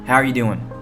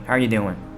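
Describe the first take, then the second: No difference in how they are said.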